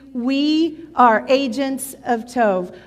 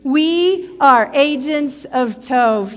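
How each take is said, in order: First: It is said quietly with low energy. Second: It is said loudly with high energy.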